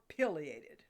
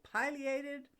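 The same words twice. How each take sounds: First: "pileated" with a short i, like pill; slow "pileated" as PILL-ee-ated; short-i pronunciation. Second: "pileated" with a long i, like pie; long-i pronunciation. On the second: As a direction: say "pileated" starting PIE-lee. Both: Shown as a demonstration. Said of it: "is this snazzy dinosaur properly called".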